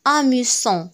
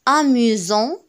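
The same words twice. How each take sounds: First: The middle consonant sounds like s. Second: The middle consonant sounds like z. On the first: The speaker calls it wrong. "وليس amusant" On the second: The speaker calls it right. "قرأناه amusant"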